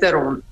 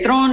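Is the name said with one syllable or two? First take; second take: two; one. First: It is said as two syllables, English style. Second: It is said as one syllable, Afrikaans style.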